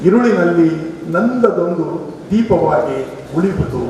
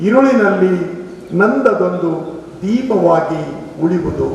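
Both takes have the same delivery.

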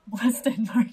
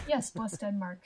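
First: Loud, drawn-out mock toast; big, slow, hammed-up delivery; exaggerated repeat. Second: Said in the usual way. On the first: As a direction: stretch it out loudly for comic effect. Repeats the line with laughing.

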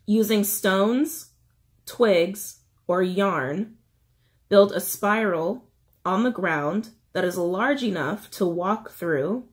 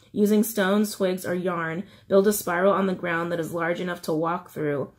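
First: Slow, with pauses between items; slow reading. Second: Said in the usual way. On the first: Shown as a demonstration. Reiterating instructions for anyone struggling to shed, slow reading. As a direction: read it out slowly, phrase by phrase. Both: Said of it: "I'll try to read it slowly".

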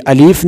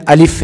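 First: الف with the second vowel stretched, "aleef"; wrong, lengthened alif. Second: الف with a short second vowel, "alif"; short, quick alif. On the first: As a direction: drag out the "ee" in الف. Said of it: "یہ الف نہیں ہے". (الف کو لمبا کر کے) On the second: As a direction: say الف quickly, without stretching the "i". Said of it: "اس کو لمبا نہیں پڑھیں گے، جلدی پڑھیں گے". (الف کو لمبا کیے بغیر، جلدی) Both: Shown as a demonstration.

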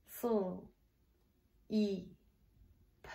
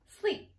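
First: "Full" as a held s-l blend, then "E", then "P"; soft, separated sounds for "Full. E, P"; sounded out. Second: Said in the usual way. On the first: Shown as a demonstration. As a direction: sound out "Full. E, P" with long gaps. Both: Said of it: "Get the blend".

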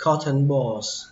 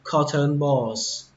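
First: "cotton balls" with "ton" said as "thần"; second-vowel variant. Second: "cotton balls" said slowly with "cotton" as "khó-thơn"; first pronunciation. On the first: Teacher shows second reading of "cotton balls", "ton" as "thần". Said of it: "đọc chữ này là thần". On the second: Teacher models first reading of "cotton balls", slow "khó-thơn". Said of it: "thì các bạn đọc là cotton balls". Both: Shown as a demonstration.

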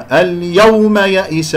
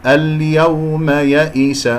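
First: اليوم يئس with a hard push on the "aw"; wrongly stressed و. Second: اليوم يئس slow, with an easy unstressed "aw"; soft glide و. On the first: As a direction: punch the و in اليوم. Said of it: "لا أنبر هذه الواو". (نطق اليوم يئس خطأً بنبر الواو) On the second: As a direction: let the و of اليوم glide without a push. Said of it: "واو لين". (نطق اليوم يئس بواو لينة دون نبر) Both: Shown as a demonstration.

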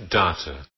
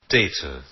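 First: "data" said DAH-tuh; "data" with a broad A, DAH-tuh; "data" the British way, first vowel as in father. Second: "Data" said DAY-tuh; "Data" with a long A, DAY-tuh; "Data" the American way, first vowel as in day. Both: Shown as a demonstration. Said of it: "also British data".

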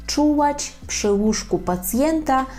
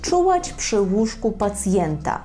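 First: Higher and slower for learners; teacher's slow model phrase; slow, careful repeat. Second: Said in the usual way. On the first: Shown as a demonstration. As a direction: spell out "Czuwać przy łóżku pacjenta" slowly, syllable by syllable. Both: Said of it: "ми скажемо czuwać".

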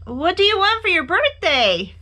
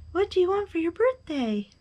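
First: High, loud eager question; excited high-pitched call. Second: High echoed question, held back; high voice, less forceful. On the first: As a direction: holler the question far off. Bear calls across to the moon. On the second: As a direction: repeat it like a distant echo. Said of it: "his own voice echoed". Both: A narrator's reading.

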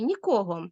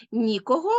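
First: "нікого" stressed on КО; stress on second syllable. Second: "Нікого" stressed on НІ; stress on first syllable. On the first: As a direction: punch the middle syllable of "нікого". (наголос у слові «нікого» на другий склад: КО) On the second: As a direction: punch the opening syllable of "Нікого". (наголос у слові «Нікого» на перший склад: НІ) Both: Shown as a demonstration. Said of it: "правильно наголошувати такі слова".

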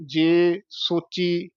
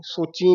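First: Slow ਜੇ ਸੋਚੀ, pure oral "ee"; no nasal ending. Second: ਸੋਚੀ with a nasal "een"; nasalised ending. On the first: Teacher modelling the word slowly, un-nasalised ending. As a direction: end ਸੋਚੀ without nasalising. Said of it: "ਬਿੰਦੀ ਨਹੀਂ ਲਾਉਣੀ". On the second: Teacher showing what not to say, nasalised ending. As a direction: add a nasal to the end of ਸੋਚੀ. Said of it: "ਸੋਚੀ ਨਹੀਂ ਕਹਿਣਾ". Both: Shown as a demonstration.

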